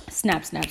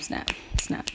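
First: Said in the usual way. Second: Whispered snap snap, no voice; whispering. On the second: Real, not acted. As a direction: breathe the words out unvoiced. Snapping along to article title.

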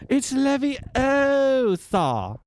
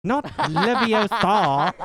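First: Leviosa said slowly, high, stress on o; Hermione correcting. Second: Leviosa said slowly, stress on ah; Hermione correcting. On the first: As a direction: drawl Leviosa with a long o. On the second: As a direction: drawl Leviosa ending in a long ah. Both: Acted. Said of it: "one I expected".

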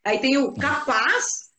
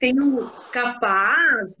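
First: Capaz said slowly with a rising question tune. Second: Capaz said slowly with a falling, amazed tune; admiring capaz. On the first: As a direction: ask capaz like a real question, lifting at the end. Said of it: "com o ponto de interrogação". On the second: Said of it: "do tipo, admirado". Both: Shown as a demonstration.

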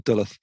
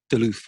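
First: "Duluth" said as DULL-uth; mistaken pronunciation. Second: "Duluth" said as duh-LOOTH; correct pronunciation. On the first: Podcaster offering his old misreading, "Duluth" as DULL-uth. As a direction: stress the short first syllable of "Duluth", like "dull". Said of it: "I always pronounced it as Duluth". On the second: Podcaster setting two readings side by side, "Duluth" as duh-LOOTH. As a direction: stress the long second syllable of "Duluth". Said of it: "that was all I knew about". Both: Shown as a demonstration.

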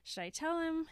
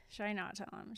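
First: Pitched up, questioning himself or herself; light singsong deliberation; weighing yes. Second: Softer, dropped-down answering question; light singsong deliberation, falling back; weighing no. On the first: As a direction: lift the voice for the yes side. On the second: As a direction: drop the voice for the no side. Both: Retold or imitated. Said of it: "she's been doing the, like".

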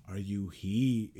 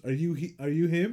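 First: Low, slow grammar correction; hint of a pedantic waiter, slow and lower. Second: Said in the usual way. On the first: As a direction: correct him with slow prissy care. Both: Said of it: "And he goes".

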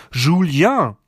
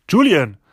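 First: "Julien" said the French way, higher and louder; French pronunciation. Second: "Julian" said the English way, high and loud; English pronunciation. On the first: ("Julien" französisch ausgerufen) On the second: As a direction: exclaim "Julian" with English J, stressed at the start. ("Julian" englisch ausgerufen) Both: A narrator's reading. Same name, French then English form.

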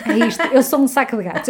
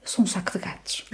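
First: Emphatic. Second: Breathy whispered aside; whispering. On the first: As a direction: proclaim it proudly. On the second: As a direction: whisper it to yourself. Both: Real, not acted. Repeats her phrase for effect.

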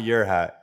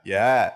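First: "your hat" with the r sounded in "your"; r pronounced. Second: "Your hat" said loud and clipped as "yuh hat"; New York accent. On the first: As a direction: say a full "yer" in "your hat". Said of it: "no, not your hat". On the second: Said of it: "not your hat". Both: Shown as a demonstration.

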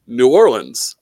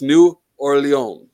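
First: "New Orleans" said as noo OR-lunz; English-style "Orleans" with a sounded final S; anglicized pronunciation. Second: "New Orleans" said as noo or-lay-ON; slow French "Orleans", silent S, nasal ending; French pronunciation. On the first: Retold or imitated. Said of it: "When people say". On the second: Shown as a demonstration. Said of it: "Get it fucking right".

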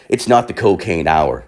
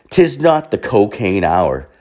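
First: Said in the usual way. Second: Slow, stately 'tis; mock-grand, measured declaration; mock-formal pronouncement. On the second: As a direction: proclaim it slowly like old-time verse. Mock-formal repeat of the line.

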